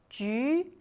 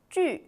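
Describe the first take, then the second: First: The pitch rises from mid to high. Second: The pitch falls sharply from high to low.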